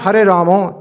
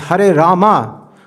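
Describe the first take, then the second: First: The second word ends in an 'o' sound. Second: The second word ends in an 'a' sound. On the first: The speaker calls it wrong. "It's not Hare Ramo" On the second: The speaker calls it right. "it's Hare Rama, according to the Puranas and Upanishads"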